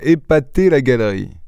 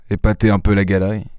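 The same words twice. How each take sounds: First: Mock echo. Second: Said in the usual way. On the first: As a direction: throw "épater la galerie" back at him, mildly offended. Lupin echoes Ganimard's phrase, offended. (reprise ironique de « épater la galerie », plus haut)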